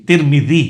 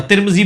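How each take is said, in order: First: ترمذی as tir-mi-DHEE, soft th as in "this"; soft dhal. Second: ترمذی quickly as TIR-mi-zee, buzzing z for dhal; common wrong z. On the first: Shown as a demonstration. Teacher showing the gently made letter, careful soft dhal. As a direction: say ترمذی deliberately, tongue lightly between teeth for ذ. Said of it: "وہ ذال ہے جو نرمی سے نکلتی ہے". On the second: Retold or imitated. Teacher quoting how a scholar says it, common z pronunciation. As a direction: say ترمذی casually with a plain z. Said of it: "ترمذی بولے گا".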